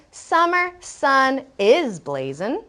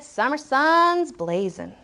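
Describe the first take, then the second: First: "is" said as its own word before "blazing"; full form "is". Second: "sun's" run into one word, ending in z; contracted "sun's". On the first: Teacher contrasting full wording, "is" spoken out separately. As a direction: slowly separate "sun" and "is". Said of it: "So instead of saying". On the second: Teacher quoting the author, "sun's" contracted. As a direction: merge "is" into "sun's", slowly. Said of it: "the author said". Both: Shown as a demonstration.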